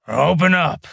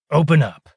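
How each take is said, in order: First: A louder, higher growled demand; gruff order through a door hatch. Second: Gruff door-guard order, louder; louder demand. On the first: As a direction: bark the order at the door guard. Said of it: "he growled". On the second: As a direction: shout it at the hatch. Molen demands door opened again. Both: A narrator's reading.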